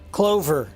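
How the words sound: The final r is clearly pronounced. "Hard on the er"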